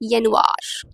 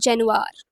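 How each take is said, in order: First: The word begins with a Y sound. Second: The word begins with a J sound. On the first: The speaker calls it right. "It's यनुआर" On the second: The speaker calls it wrong. "This is not जनवार"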